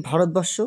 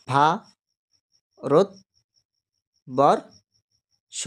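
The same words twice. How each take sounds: First: Said in the usual way. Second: ভা-রত-বর-ষ split into four slow beats, ভা, রত, বর, ষ; syllable by syllable. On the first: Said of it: "কটা ঝোঁক লাগলো?". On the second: Shown as a demonstration. Teacher sounding out ভারতবর্ষ for the class, slowly split. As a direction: say ভা-রত-বর-ষ very slowly, a pause after each syllable. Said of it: "চারটি ঝোঁক".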